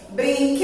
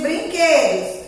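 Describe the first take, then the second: First: "Brinquedos" with a long held QUE; drawn-out stressed syllable. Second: Said in the usual way. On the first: Shown as a demonstration. Teacher showing children where she lingers, drawn out. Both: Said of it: "A tia demorou mais no quê?".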